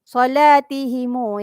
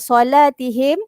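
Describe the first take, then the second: First: The final m is followed by an added u. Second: The word ends on a closed m sound.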